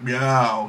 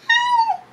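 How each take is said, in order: First: Said in the usual way. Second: Very high, squeaky little meow; tiny high meow. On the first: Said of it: "instead of being like". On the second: Retold or imitated. Big bulky cat Dean gives a tiny, very high meow. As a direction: mew it like a tiny kitten. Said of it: "like my cat Dean".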